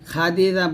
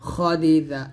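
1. প্রথম স্বরধ্বনিটি স্পষ্ট, খোলা 'a'। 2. প্রথম স্বরধ্বনিটি গাঢ়, 'o'-এর মতো ধ্বনি। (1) "খাদি দা বলবেন না" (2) "খদি দা, এরকম বলতে হবে"

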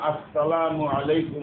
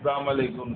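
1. অভিবাদনটি একটি পূর্ণ 'as-salamu' দিয়ে শুরু হয়। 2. অভিবাদনটি একটি ছোট 'salam' দিয়ে শুরু হয়। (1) "শুদ্ধ সালাম হচ্ছে যেমন" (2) "অধিকাংশই অশুদ্ধ উচ্চারণ করে"

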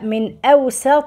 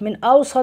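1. صوت السين مرقق وخفيف. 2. صوت السين مفخم وثقيل. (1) "لا من أوسط" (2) "بالصاد"

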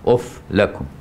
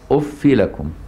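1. تنتهي كلمة uff بدون أي حركة. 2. تنتهي كلمة uff بكسرة قصيرة. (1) "والسابع بالجزم" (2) "بالكسر بغير تنوين"

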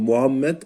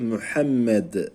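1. Türkçe telaffuz ediliyor, sade ve yumuşak. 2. Arapça telaffuz ediliyor, boğazdan h, çift m. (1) "Türkçede Muhammed" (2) "Arapçada Muhammed"

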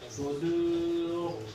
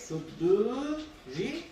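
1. Kelime kalın r ile biter. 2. r ince okunur ve arkasından bir ünlü gelir. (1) "Durursak kendinden önceki harfi ötürü olduğu için sudur kalın" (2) "Orada durmayıp da geçersek suduri ince"

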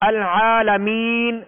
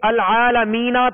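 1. لفظ ساکن ن پر ختم ہوتا ہے، اس سے پہلے لمبا مصوتہ ہے۔ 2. لفظ ن کے بعد مصوتے پر ختم ہوتا ہے۔ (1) "اب وقف کیا تو وقف کی صورت میں سکون ساکن کیا نون کو" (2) "تو یہ العالمین تھا"

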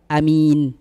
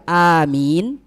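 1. Vokal pertama dibaca pendek. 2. Vokal pertama dibaca panjang.

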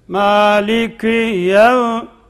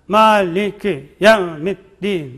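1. Her kelime hafif ve eşit bir vurguyla başlar. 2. Her kelime yukarı aşağı zıplıyor, düzensiz bir şekilde. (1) "her kelimenin birinci harfinde vurgulama var ama bu da tabi zıplama gibi olmayacak" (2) "Zıplar gibi okumak... Yani maliki yevmiddin böyle yok"

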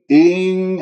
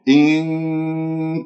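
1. الحركة الأولى تُمَدّ وتُطال. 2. الحركة الأولى تبقى قصيرة.

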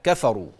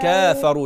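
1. الحركة الأولى قصيرة. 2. الحركة الأولى طويلة. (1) "لا كفروا" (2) "مش كافروا"

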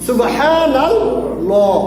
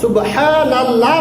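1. Allah-এর l ভারী ও মোটা। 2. Allah-এর l হালকা ও পাতলা। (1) "মোটা করে ল দিয়ে পড়তে হবে" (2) "সুবহানাল্লাহ নয়"

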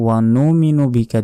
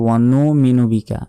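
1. minu-এর আগের হামযা বাদ দেওয়া হয়। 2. minu-এর আগের হামযা বাদ দেওয়া হয়।

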